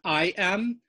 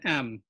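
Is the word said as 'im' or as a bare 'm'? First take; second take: im; bare m. First: The word is said with a full 'i' vowel. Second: The word is said as a bare 'm' sound. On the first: This is the standard form. "We would expect in standard transliteration im" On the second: This is the Lithuanian dialect form. "em is more the Litvak pronunciation"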